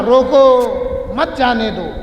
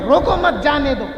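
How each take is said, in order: First: Slow drawn-out روکو, then a break, then مت جانے دو as one phrase; روکو stretched and cut off, مت جانے دو said together; pause after روکو. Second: روکو مت run together, then a break before جانے دو; group روکو مت, pause, then جانے دو, meaning let him go; روکو مت said as one phrase, جانے دو after the break. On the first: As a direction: hold روکو and pause before مت جانے دو, meaning stop him. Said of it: "جیسا اگر کوئی بول رہا". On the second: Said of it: "یہی جملے کو بول رہے ہیں". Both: Shown as a demonstration.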